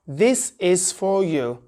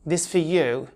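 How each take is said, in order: First: Each word is said separately and in full. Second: The words run together, with 'is' merged away. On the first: "let's split it um, word by word" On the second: "connected speech"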